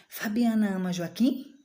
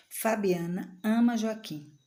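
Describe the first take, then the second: First: "Fabiana ama Joaquim" rising sharply on "Joaquim"; yes-no question tune, up on "Joaquim". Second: "Fabiana ama Joaquim" slow and deliberate, falling to a full stop; statement. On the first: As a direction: ask "Fabiana ama Joaquim" with the voice lifting at the end. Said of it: "Eu tô perguntando". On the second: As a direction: affirm "Fabiana ama Joaquim", unhurried, with "ama" stressed. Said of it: "Eu estou afirmando, ponto". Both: Shown as a demonstration.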